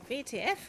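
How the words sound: The first letter is said as vay. The speaker calls it right. "I enjoy the German pronunciation of V T F. ... rolls off the tongue"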